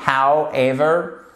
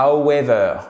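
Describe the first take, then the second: First: "However" slow, with a clearly sounded start; correct model pronunciation. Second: "however" said badly, as a learner's mistake; mispronunciation demo. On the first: Teacher correcting a common learner mistake, correct model pronunciation. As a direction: stretch "However" out carefully, rising at the end. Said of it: "Faites bien attention, c'est pas". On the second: Teacher warning French learners what to avoid, mispronunciation demo. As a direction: show the faulty "however", slurred at the start. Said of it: "c'est pas however". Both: Shown as a demonstration.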